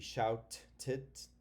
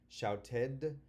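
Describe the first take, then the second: First: The ending is a bare "t" sound. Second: The ending is a full "id" syllable. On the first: The speaker calls it wrong. "can it sound like a T?" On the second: The speaker calls it right. "So ed here sounds like ed"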